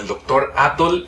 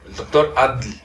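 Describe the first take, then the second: First: The name's ending has a vowel between t and l. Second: The name's ending has no vowel and a clipped l. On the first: This is how it is said locally. "lo escucho como el doctor Atoll" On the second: This is how people in the capital say it. "casi no pronuncian la O ni la L"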